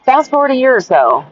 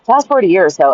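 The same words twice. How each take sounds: First: Opening line hit louder by accident; loud slip at the start of a new chapter; too loud. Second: Said in the usual way. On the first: Real, not acted. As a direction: start the sentence a bit too loud for the mic. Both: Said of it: "Oh, sorry, that was probably really loud".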